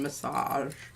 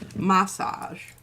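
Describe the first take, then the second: First: The word is said a non-British way. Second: The word is said the British way. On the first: "rather than massage" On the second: "I think that's the way the Brits say it"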